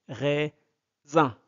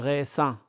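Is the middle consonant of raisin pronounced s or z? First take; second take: z; s. First: The middle consonant is a buzzing z sound. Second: The middle consonant is a hissing s sound. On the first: The speaker calls it right. "S entre deux voyelles devient Z" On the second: The speaker calls it wrong. "on ne prononce pas"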